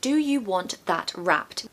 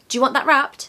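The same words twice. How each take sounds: First: It is said slowly. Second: It is said fast.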